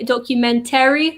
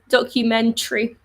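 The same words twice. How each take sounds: First: The vowel before the final 'ry' is pronounced. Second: The vowel before the final 'ry' is dropped. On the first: The speaker calls it wrong. "We don't say documentary because it's too long" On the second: The speaker calls it right. "So we say documentary"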